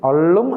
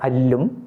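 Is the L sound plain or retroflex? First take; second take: retroflex; plain. First: The L sound is retroflex, tongue curled back. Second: The L sound is plain, tongue tip forward. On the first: It would mean scooping up. The speaker calls it wrong. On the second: It means night. The speaker calls it right.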